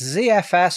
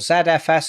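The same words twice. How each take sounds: First: The letters are named in a non-British way. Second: The letters are named in the British way.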